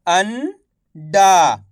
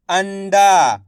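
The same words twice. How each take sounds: First: "अंडा" split slowly, pause before डा; syllable by syllable. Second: "अंडा" blended into one word; syllables joined. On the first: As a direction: sound out "अंडा" as अन, then डा. ("अंडा" को तोड़कर, धीरे-धीरे) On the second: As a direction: say "अंडा" whole, without the pause. ("अंडा" मिलाकर एक शब्द में) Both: Shown as a demonstration. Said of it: "एक एक अक्षर का उच्चारण करके".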